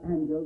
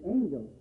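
First: The first vowel is a short a. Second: The first vowel is a long a. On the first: The speaker calls it wrong. "it's not angel" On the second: The speaker calls it right. "but it's angel"

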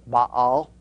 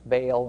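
First: The word is said in its technical form. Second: The word is said in its common form. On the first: This form is closer to the original. "the more technical pronunciation, probably more accurate" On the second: This form is the one dictionaries list. "the more common use pronunciation"

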